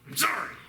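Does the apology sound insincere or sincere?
insincere. The apology sounds curt and resentful. The speaker is not really sorry. "It was like"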